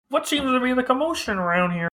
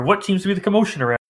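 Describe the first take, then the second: First: Put-on high first try at an old man; a bad first stab at an old voice; failed old man voice. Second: Put-on high, fast old man voice; quick doddering old man; elderly voice. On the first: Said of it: "That's not the good voice". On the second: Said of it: "In an elderly voice".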